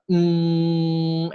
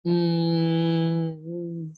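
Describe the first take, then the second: First: Long, steady, higher "Mm" hum; loud sustained humming "Mm" through the nose; nasal consonant demo. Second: Held "Mm" hum that gets choked off; higher, level "Mm" fading as airflow stops; nostrils closed demo. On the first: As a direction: hold "Mm" on one level note. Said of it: "if you say". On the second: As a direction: hum "Mm" while shutting the nostrils. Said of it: "then you close your nostrils". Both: Shown as a demonstration.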